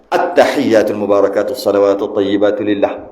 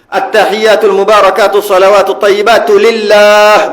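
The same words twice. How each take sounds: First: The final vowel of lillah is cut short. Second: The final vowel of lillah is held long. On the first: The speaker calls it wrong. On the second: The speaker calls it right. "Biar panjang sikit eh"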